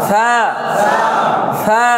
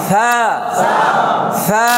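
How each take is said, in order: Both takes have the same delivery.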